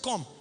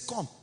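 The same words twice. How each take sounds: First: It sounds like a warning of trouble. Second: It sounds pleased and impressed.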